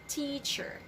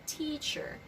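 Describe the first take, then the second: First: The starting T sound is strong and forceful. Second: The starting T sound is strong and forceful.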